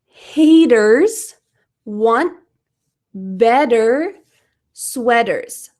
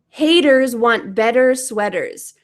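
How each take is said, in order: First: The sentence is said at a normal pace. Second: The sentence is said at a fast pace.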